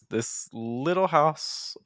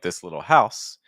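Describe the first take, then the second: First: The stress falls on the word little. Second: The stress falls on the word house. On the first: "Like this" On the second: "instead of like"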